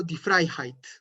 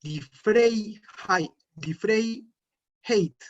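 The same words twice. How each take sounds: First: Die Freiheit with ei said as ai; correct German. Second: Die Freiheit said very slowly, ei read as E then I; wrong spelling pronunciation. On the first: Teacher gives learners the right reading after the wrong one. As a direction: die Freiheit, crisp ai sound. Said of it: "sino que digo". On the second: Teacher shows learners the wrong reading, very slow. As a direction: drag out die Freiheit letter by letter. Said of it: "yo no diría". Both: Shown as a demonstration.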